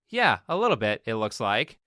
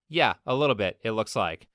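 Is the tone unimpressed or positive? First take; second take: positive; unimpressed. First: It sounds positive and pleased. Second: It sounds unimpressed and dismissive.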